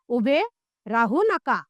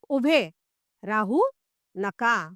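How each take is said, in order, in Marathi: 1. वाक्य मध्ये कुठेही थांबा न घेता पुढे जाते. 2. पहिल्या शब्दानंतर थांबा आहे. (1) "पहिल्या वाक्यात बसून राहा असा अर्थ होतो" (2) "दुसऱ्यात उभे राहा पण थांबू नका असे वाटते"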